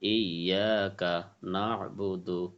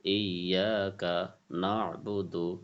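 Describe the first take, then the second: Both takes have the same delivery.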